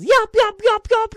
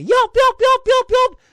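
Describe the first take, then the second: First: High, loud echoing yips; imitated coyote yelps. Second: High, loud yipping yelps; imitated coyote yelps. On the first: Imitating the coyote echoing down the canyon, high loud yips. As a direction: yelp like a coyote chasing close behind. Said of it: "sounded like that coyote was right on my heels". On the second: Mocking the coyote yelping at him on the mountain, high loud yips. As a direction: yelp like an angry coyote. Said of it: "He's all yelping at me".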